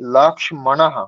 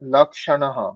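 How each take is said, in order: First: It is said with an m sound. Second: It is said without an m sound. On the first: The speaker calls it right. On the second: The speaker calls it wrong.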